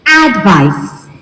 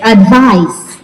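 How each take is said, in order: First: "advice" said as AD-vice, falling away after; stress on first syllable. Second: "Advice" said as ad-VICE; weight the end of "Advice", as a verb; stress on second syllable. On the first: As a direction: hit the opening of "advice", as a noun. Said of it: "The stress is on the first". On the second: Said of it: "the stress moves to the second syllable". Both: Shown as a demonstration.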